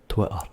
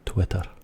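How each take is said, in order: First: The middle T is dropped, Scottish style. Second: The middle T is pronounced clearly.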